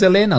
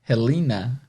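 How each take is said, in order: First: The name begins directly with the vowel. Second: The name begins with an audible breathy h. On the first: This is how it is said in Portuguese. "mas vamos continuar Helena aqui" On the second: This is how it is said in English. "em inglês seria Helena ... o H é sempre com som de R"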